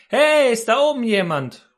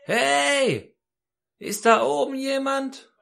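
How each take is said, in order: First: High, loud shout upward; calling for help. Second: Very high, long-drawn call upward; more urgent calling out. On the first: Hanging man calls up the cliff for someone, shouting. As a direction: holler up to whoever might hear. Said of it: "schrie er". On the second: Hanging man got no answer and calls up, urgent high call. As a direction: stretch the cry so it carries up the cliff. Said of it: "rief er natürlich etwas lauter". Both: Retold or imitated.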